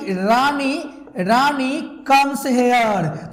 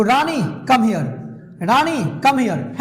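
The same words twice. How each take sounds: First: Rani comes here run together in one slow flow; one flow, drawn out. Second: Slow firm command, come stressed; as an order. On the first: Teacher showing the habit reading in one flow. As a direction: let it glide as a statement. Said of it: "अगर एक flow में बोल दिए तो". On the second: Teacher demonstrating an order to a student. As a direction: call Rani over, slowly. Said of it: "order देना है तो". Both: Shown as a demonstration.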